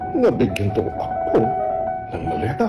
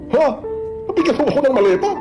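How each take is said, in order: First: It sounds sarcastic. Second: It sounds surprised, like a natural reaction.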